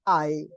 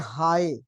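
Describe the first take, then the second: First: It begins directly with the vowel, no h. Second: It begins with an audible h sound. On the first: "अगर इसके ऊपर ब्रीदिंग ना हो तो ये होगा आई" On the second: "ये हार्ड ब्रीदिंग आ गई है, इसे पढ़ेंगे हाई"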